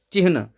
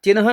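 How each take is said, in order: First: चिन्ह said as "chihn", h before n; correct pronunciation. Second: चिन्ह said as "chinha", h after n; wrong pronunciation. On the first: Teacher correcting the misspelt word, चिन्ह as "chihn". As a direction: close चिन्ह on the n, with h just before it. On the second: Teacher rejecting the misspelt word, चिन्ह as "chinha". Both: Shown as a demonstration. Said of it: "चिन्ह नहीं".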